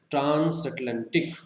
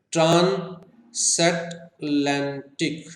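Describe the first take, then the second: First: Said in the usual way. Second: ट्रांसैटलांटिक slowly as ट्रान, सैट, लैन, टिक; four-syllable split. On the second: Shown as a demonstration. Teacher counting four syllables, ट्रांसैटलांटिक in separate beats. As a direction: pause after each syllable of ट्रांसैटलांटिक. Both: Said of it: "four syllables के हमारे पास".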